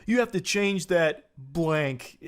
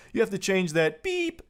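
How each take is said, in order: First: Said in the usual way. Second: High, held beep in place of the swear; imitated censor tone on BEEP. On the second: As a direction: read it out, bleeping the curse. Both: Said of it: "He's literally beeping himself with a sensor".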